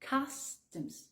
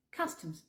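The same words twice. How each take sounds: First: "Customs" split, as "cas ... tems". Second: "Customs" in one go, as "castems"; natural-speed U as A. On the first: Teacher breaks down Customs for learners, U as A. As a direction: say Customs in two soft parts, O reduced. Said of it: "Le U se prononce comme si c'était un A". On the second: Teacher repeats Customs whole, U as A. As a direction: say Customs quickly, higher and softer. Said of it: "le O comme un E". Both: Shown as a demonstration.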